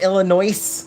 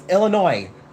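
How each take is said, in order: First: The word ends with an audible S sound. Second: The word ends without any S sound. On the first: The speaker calls it wrong. "People from Illinois get really, really upset" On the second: The speaker calls it right. "there's no S"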